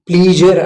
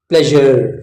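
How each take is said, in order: First: The first vowel is a long ee sound. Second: The first vowel is a short e sound. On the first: The speaker calls it wrong. "ಇದು ಪ್ಲೀಜರ್ ಆಗಲ್ಲ" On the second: The speaker calls it right. "ಇದು ಪ್ಲೆಜರ್ ಪ್ಲೆಜರ್"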